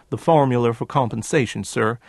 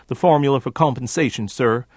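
The two takes are said the same way.

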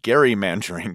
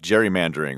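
First: The word begins with a hard g sound. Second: The word begins with a soft j sound.

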